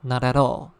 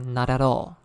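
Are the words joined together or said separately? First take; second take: joined; joined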